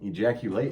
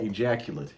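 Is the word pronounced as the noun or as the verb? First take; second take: verb; noun. First: It is pronounced as the verb form. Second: It is pronounced as the noun form. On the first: It names an action. "Ejaculate is a verb" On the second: It names a substance. "that's a noun"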